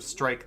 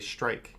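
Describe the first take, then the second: First: The word is said with the standard pronunciation. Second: The word is said with a subtly altered start. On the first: "instead of strike" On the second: "they'll say strike. It's very subtle"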